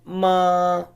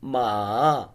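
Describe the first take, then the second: First: The pitch stays high and level. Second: The pitch dips down and then rises. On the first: "the first one ma" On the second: "Third tone ma"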